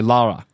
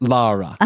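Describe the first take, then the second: First: The first vowel is an open 'ah' sound. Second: The same.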